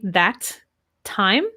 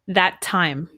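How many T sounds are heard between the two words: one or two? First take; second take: two; one. First: Both T sounds are pronounced separately. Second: The two T sounds merge into one. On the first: The speaker calls it wrong. "Would I say that time?" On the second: The speaker calls it right. "listen to how I say it"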